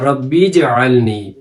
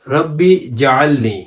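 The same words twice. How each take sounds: First: The j sound is joined to the preceding word. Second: The j sound is separated from the preceding word. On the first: The speaker calls it right. "जीम पे जज़म है, बा को जीम के साथ मिलाना है" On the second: The speaker calls it wrong. "ये लफ्ज़ जो है ये गलत है"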